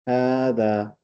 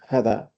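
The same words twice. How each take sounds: First: The first vowel is drawn out long. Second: The first vowel is clipped short. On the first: The speaker calls it right. "we say هذا with the same heaviness of the alif" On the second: The speaker calls it wrong. "not هذا"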